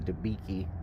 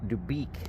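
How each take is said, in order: First: The name ends with an extra 'ee' vowel. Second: The name ends without an extra vowel. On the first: The speaker calls it wrong. "pronouncement of Dubiki was the funniest thing" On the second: The speaker calls it right. "Dubik, not Dubiki"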